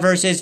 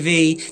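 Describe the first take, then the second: First: It is said as the full word versus. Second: It is said as the single letter V. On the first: The speaker calls it wrong. "not versus" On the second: The speaker calls it right. "it's a V"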